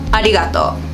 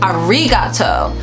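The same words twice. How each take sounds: First: The middle consonant sounds close to an L. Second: The middle consonant sounds like an English R. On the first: The speaker calls it right. "if you think about the R as an L, you could pronounce it right" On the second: The speaker calls it wrong. "a lot of people actually do pronounce it like this, and this is a huge mistake"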